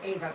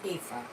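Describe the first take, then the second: First: The name is said the English way. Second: The name is said the German way. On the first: This is how the speaker says her own name. "I pronounce it Ava" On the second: This is how the name is said in German. "but in German it's Afa"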